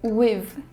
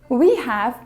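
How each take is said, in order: First: It is shortened to one syllable. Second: It is said as two full words.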